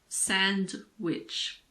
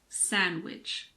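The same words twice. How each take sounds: First: The D is pronounced. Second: The D is not pronounced. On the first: The speaker calls it wrong. "It's not sandwich" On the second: The speaker calls it right. "common words that also have a silent D"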